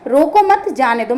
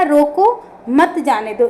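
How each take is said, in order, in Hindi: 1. 'mat' के ठीक बाद विराम है। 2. 'roko' के ठीक बाद विराम है। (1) "मत के बाद लगा दूं" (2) "यहाँ पर रोको के बाद"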